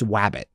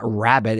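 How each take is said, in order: First: The word begins with a W sound. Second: The word begins with an R sound. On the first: "it's wabbit" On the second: "It's not rabbit"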